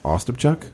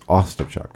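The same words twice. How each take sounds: First: The stress is on a later syllable. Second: The stress is on the first syllable. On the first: The speaker calls it wrong. "Actually, that's Ostapchuk" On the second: The speaker calls it right. "It's the emphasis on the first syllable"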